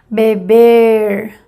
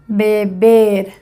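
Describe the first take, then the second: First: The final r sounds like an English r. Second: The final r sounds like a Spanish r. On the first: "Primer ejemplo en inglés" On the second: "semejante de español"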